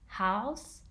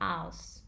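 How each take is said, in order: First: The word begins with an h sound. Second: The word begins without an h sound. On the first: "can be pronounced both as house" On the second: "and aus"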